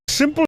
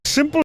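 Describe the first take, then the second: Both takes have the same delivery.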